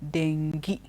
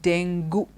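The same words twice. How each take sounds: First: The word is said unlike its spelling. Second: The word is said following its spelling. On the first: The speaker calls it right. "it is dengue" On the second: The speaker calls it wrong. "We pronounce it dengue because the spelling is D E N G U E"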